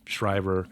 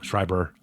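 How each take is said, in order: First: The middle consonant is a v sound. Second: The middle consonant is a b sound. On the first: The speaker calls it wrong. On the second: The speaker calls it right.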